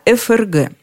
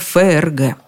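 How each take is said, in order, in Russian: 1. Букву F произносят по её названию в алфавите. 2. Букву F произносят иначе, не по её названию в алфавите. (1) "Если следовать правилам, говорить надо ФРГ" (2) "Все мы дружно говорили исключительно ФРГ"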